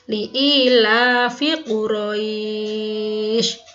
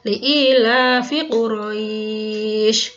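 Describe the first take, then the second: First: The long vowel is held for six beats. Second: The long vowel is held for four beats. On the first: "enam harokat" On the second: "dua, empat harokat sekarang"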